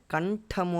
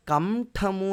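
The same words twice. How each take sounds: First: "kaṇ-ṭhamu", tongue curled back for the nasal in కంఠము; correct retroflex nasal. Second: Slow కంఠము with an m before th, "kam-thamu"; "kam-thamu", lips closing on the nasal in కంఠము; wrong "m" sound. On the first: Teacher showing students the proper way, కంఠము as "kaṇ-ṭhamu". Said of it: "అని పలుకుతాం". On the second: Teacher showing students how not to say it, కంఠము as "kam-thamu". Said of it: "అని పలకం". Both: Shown as a demonstration.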